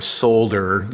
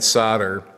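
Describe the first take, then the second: First: It uses another region's pronunciation. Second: It uses the speaker's own regional pronunciation.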